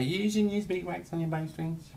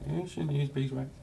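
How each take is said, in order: First: High, nagging mock voice; mocking what people say. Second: High mock-nagging voice; mocking the warning. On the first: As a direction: parrot the know-it-alls. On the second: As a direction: ape the warning. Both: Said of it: "People say".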